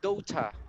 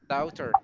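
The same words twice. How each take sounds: First: It is said in a British accent. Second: It is said in an Australian or Irish accent. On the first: "in British, it sounds like daughter" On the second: "Australian or uh, Irish person who sounds like my daughter"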